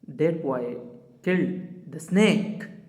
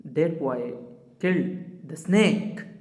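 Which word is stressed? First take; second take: snake; snake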